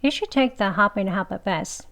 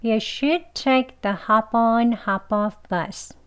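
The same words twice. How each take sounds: First: Quick, run-together model sentence; fast. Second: Slow, careful model sentence. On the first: Teacher showing the bus sentence at speed, fast. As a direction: rattle it off fast with the words linked. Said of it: "빨리 해볼게요". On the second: Teacher modelling the bus sentence for learners, slowly. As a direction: take it slowly, linking each phrase clearly. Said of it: "천천히 해볼게요". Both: Shown as a demonstration.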